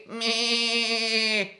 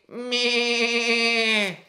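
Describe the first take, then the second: Both takes have the same delivery.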